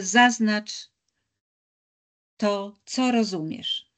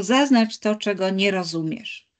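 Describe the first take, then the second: First: Co in „to, co rozumiesz” lifted, words drawn out slowly; teacher presenting the new instruction, slow, co stressed. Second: Nie in „czego nie rozumiesz” leaned on, the usual instruction; teacher quoting the common instruction, nie stressed. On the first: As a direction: set out the new task slowly, landing on co. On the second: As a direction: quote the old task, weight on nie. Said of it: "Polecenia są często". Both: Shown as a demonstration.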